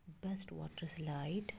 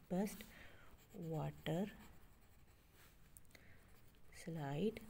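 First: Said in the usual way. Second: best, water, slide apart with long pauses; slow counting-out of best water slide; word by word. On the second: Shown as a demonstration. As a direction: dictate best... water... slide, each rising. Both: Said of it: "इसके five syllables इधर आगे".

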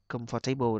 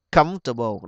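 First: Comfortable said as com-FOR-tay-ble; common mispronunciation. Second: Comfortable with COMF punched, rest swallowed; stress on first syllable. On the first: Retold or imitated. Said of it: "nhiều bạn đọc comfortable đó là sai". (đọc sai comfortable thành com-fo-tây-bồ) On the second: Shown as a demonstration. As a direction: say Comfortable as COMF-ta-ble, falling. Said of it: "Chúng ta nhấn âm một luôn". (nhấn âm một Comfortable)

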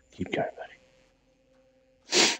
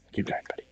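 First: Very slow whisper, every word stretched; drawn-out whisper. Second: Soft murmur of encouragement; quiet urging. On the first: Player coaxes his character on, stretched slow whisper. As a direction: coax him along, dragging it out. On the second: Player quietly urges his character forward, soft murmur. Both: Real, not acted.

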